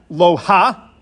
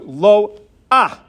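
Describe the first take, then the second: First: The a vowel comes after the final h sound. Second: The a vowel comes before the final h sound. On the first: The speaker calls it wrong. "it's not pronounced lo ha" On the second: The speaker calls it right. "as if there's an aleph with a patach before the hey"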